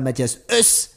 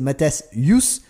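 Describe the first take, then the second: First: The surname starts with a plain vowel. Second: The surname starts with a 'y' sound. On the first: The speaker calls it wrong. "c'est pas Mathias Us" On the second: The speaker calls it right. "c'est Mathias Yus"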